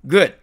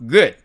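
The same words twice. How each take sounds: No difference in how they are said.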